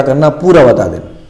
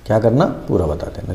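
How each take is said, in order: First: Said in the usual way. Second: Dropped quiet echo of the point; a soft, low recap for the class; softer repeat. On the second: Shown as a demonstration. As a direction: say it again, softer, almost to yourself. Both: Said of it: "teacher repeats the point".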